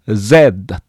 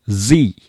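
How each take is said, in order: First: Z as "zed", ending on d; British Z. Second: Z as "zee", voiced z and long i; American Z. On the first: Teacher giving their own usage, British "zed" for Z. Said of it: "イギリス式で発音しております". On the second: Teacher explaining common US usage, American "zee" for Z. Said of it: "アメリカでは多くの人が". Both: Shown as a demonstration.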